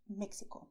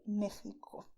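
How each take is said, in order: First: Mexico with x as ks; incorrect ks version. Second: Mexico with x as throaty h; Spanish x. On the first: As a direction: say Mexico as "Mek-si-ko". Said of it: "This is not correct". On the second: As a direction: say Mexico as "Meh-hee-ko". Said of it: "do not say this, okay? Say". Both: Shown as a demonstration.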